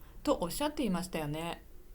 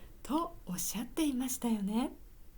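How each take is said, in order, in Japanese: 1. 普通の日常的な声で言われています。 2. 高くて上品な声で言われています。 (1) "じゃな くて" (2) "ちょっと綺麗な声で"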